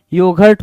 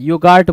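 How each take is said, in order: First: Said in the usual way. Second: योगार्ट with a long "gaart"; misspelt pronunciation. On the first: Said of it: "योगर्ट होता है". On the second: Shown as a demonstration. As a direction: open the second vowel of योगार्ट to a long "aa". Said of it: "योगार्ट बोल रहा है". (योगार्ट, "गा" पर लंबा आ)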